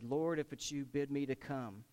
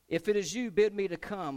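First: Said in the usual way. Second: Higher and louder plea; bold eager call. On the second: Acted. Peter begging Jesus to call him onto the water, loud. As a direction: shout the request across the waves. Peter's request, acted boldly.

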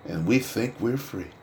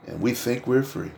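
Both takes have the same delivery.

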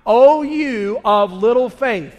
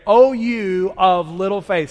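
First: Even slower and louder, every word weighted; repeat louder. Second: Slow, loud, drawn-out group chant; congregation repeating. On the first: Pastor asks the church to say it once more, slow and loud. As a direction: lean hard into it the second time. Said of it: "Say it with me one more time". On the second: Pastor leads the church in repeating it slowly. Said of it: "say those last, uh, five words with me". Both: Shown as a demonstration.

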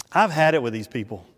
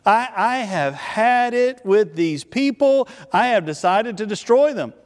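First: Low, quick, understated exasperation; fed up. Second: Higher, emphatic divine declaration; emphatic exasperation. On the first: God privately fed up with the Israelites, understated exasperation. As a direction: mutter it low and fast, fed up. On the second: God tells Moses he's done with these people, emphatic exasperation. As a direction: draw it out higher, as a decree. God's decree, repeated more forcefully. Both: Acted.

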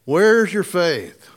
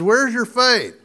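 First: "Where's your faith?" said slowly, each word stretched; a gentle, slow rebuke from Jesus; slow, drawn-out question. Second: "Where's your faith?" pitched higher, stress on "faith" with a falling end; a lightly voiced Jesus challenging Peter; higher, pointed question. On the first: Retold or imitated. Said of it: "What's he say?". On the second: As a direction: ask "Where's your faith?" up high, pressing on "faith". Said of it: "Jesus looks at him and says".

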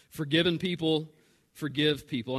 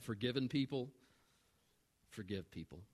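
First: Full-voiced, emphatic repeat of the main point; clear, projected preaching; firm restatement. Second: Very soft and low, with a weighty pause; grave, quiet statement; hushed key line. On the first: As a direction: state it out firmly with a pause in the middle. Same key line repeated out loud. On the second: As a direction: drop almost to a murmur for the main point. Key line first said softly, then repeated. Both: Real, not acted.

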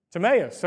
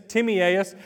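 First: Timaeus said as tuh-MAY-us; elder's pronunciation. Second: Timaeus said as TIM-ee-AY-us; alternative pronunciation. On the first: Preacher repeats an elder's correction, Timaeus as tuh-MAY-us. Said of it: "how'd you pronounce it earlier". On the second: Preacher unsure of a name, Timaeus as TIM-ee-AY-us. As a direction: draw Timaeus out into four syllables, TIM-ee-AY-us. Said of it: "however you want to say it". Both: Shown as a demonstration.

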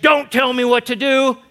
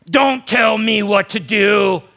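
First: Defiant retort. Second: Slow, loud, defiant snap back; defiant retort. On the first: Same retort voiced again. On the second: Pastor mocking a defiant world, loud and slow. Rebellious retort voiced in sermon. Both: Acted. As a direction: throw it back like a rebellious child.

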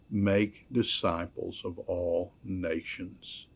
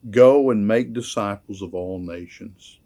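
First: "Make" leaned on, the whole line slow and soft; stress on MAKE. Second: Commanding quote. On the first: Preacher pointing out the active verb "Make" to the congregation, slow soft stress. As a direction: dwell on "Make" as the active verb, softly and slowly. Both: Shown as a demonstration. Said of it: "the active verb in this".

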